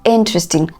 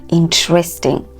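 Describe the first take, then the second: First: The stress is on the first syllable. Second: The stress is on a later syllable. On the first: The speaker calls it right. "The stress there is on in, on the first syllable" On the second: The speaker calls it wrong. "you're not saying something like interesting"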